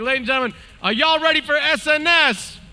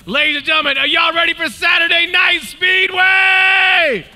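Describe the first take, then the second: First: It is said with weak, low energy. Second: It is said with strong, high energy.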